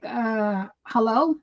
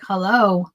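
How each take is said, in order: First: Mildly snotty questioning hello, rising at the end. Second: Snotty hello, low and falling at the end. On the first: Retold or imitated. Wife checking whether her distracted husband is listening, mildly snotty. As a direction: let a little impatience into a checking hello. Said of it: "I say it snotty sometimes". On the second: Shown as a demonstration. Wife showing the hello that makes her husband mad, snotty. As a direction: drop the hello with curt annoyance. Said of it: "'cause I say it snotty".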